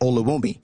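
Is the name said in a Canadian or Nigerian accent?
Canadian. It is said in a Canadian accent.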